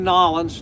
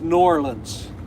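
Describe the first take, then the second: First: The name is squeezed together into two syllables. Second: The name has a clear N and a clear O. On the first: The speaker calls it wrong. "don't say Nolans" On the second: The speaker calls it right. "Definite N, definite O, and then the Orleans"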